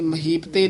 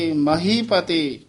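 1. ਸ਼ਬਦ ਨੂੰ ਤੇਜ਼ੀ ਨਾਲ ਇੱਕ ਜੁੜੀ ਇਕਾਈ ਵਾਂਗ ਬੋਲਿਆ ਜਾਂਦਾ ਹੈ। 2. Mahi ਨੂੰ ਲੰਮਾ ਖਿੱਚਿਆ ਜਾਂਦਾ ਹੈ, ਅਤੇ pate ਤੋਂ ਪਹਿਲਾਂ ਵਿਰਾਮ ਹੁੰਦਾ ਹੈ। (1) "ਇਹ ਮਹੀਪਤੇ ਨਹੀਂ ਕਹਿਣਾ।" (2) "ਮਹੀ ਅਤੇ ਪਤੇ ਦੇ ਵਿੱਚ ਡੈਸ਼ ਦੇ ਕੇ ਲੰਮੀ ਆਵਾਜ਼ ਨਾਲ ਬੋਲਣਾ ਹੈ।"

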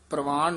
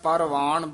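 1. p ਅਤੇ r ਇਕੱਠੇ ਇੱਕ ਜੋੜ ਬਣਾਉਂਦੇ ਹਨ। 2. p ਅਤੇ r ਦੇ ਵਿਚਕਾਰ ਇੱਕ ਪੂਰਾ ਸਵਰ ਆਉਂਦਾ ਹੈ। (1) "ਪ੍ਰਵਾਨ ਨਹੀਂ ਕਹਿਣਾ" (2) "ਸਾਰਾ ਪੂਰਾ ਪਰਵਾਨ ਬੋਲਣਾ"

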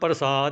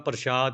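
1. ਵਿਚਕਾਰਲਾ ਵਿਅੰਜਨ ਸਾਧਾਰਨ 's' ਧੁਨੀ ਹੈ। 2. ਵਿਚਕਾਰਲਾ ਵਿਅੰਜਨ 'sh' ਧੁਨੀ ਹੈ। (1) "ਇਸ ਨੂੰ ਪ੍ਰਸਾਦ ਬੋਲਣਾ" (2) "ਪ੍ਰਸ਼ਾਦ ਨਹੀਂ ਬੋਲਣਾ, ਬਿੰਦੀ ਲਾ ਕੇ ਨਹੀਂ ਬੋਲਣਾ"

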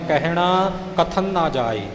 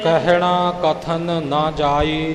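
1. ਕਾਹਲੀ ਨਾਲ ਬੋਲਿਆ ਜਾਵੇ ਤਾਂ kathan ਦਾ n ਲਹਿ ਜਾਂਦਾ ਹੈ। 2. kathan ਪੂਰਾ ਉਚਾਰਿਆ ਜਾਂਦਾ ਹੈ, ਇਸਦਾ ਅੰਤਲਾ n ਸਾਫ਼ ਹੈ। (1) "ਆਮ ਤੌਰ 'ਤੇ ਆਪਾਂ ਕਾਹਲੀ ਵਿੱਚ ਪੜ੍ਹ ਜਾਂਦੇ ਹਾਂ" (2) "ਜਿਵੇਂ ਉਚਾਰਨ ਕੀਤਾ ਪਾਠੀ ਸਿੰਘ ਜੀ ਨੇ"

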